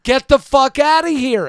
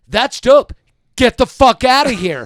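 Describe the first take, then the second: First: Loud, high, slowed scream. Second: Loud, high shout telling her off; retold shout. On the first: Retold or imitated. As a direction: scream it at the woman, every word drawn out. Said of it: "And now I'm screaming". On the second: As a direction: yell it across the restaurant table. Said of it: "I was like".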